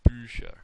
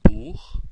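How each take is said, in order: First: Bücher said with pursed lips on ü; German Bücher. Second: Buch with a throaty ch; crisp German Buch. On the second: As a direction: Buch said with a rasped ch at the end. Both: Shown as a demonstration. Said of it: "So we have".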